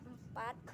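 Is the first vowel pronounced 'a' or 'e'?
e. The first vowel sounds like 'e'. This is the standard Indonesian pronunciation. "kata empat dalam bahasa Indonesia empat"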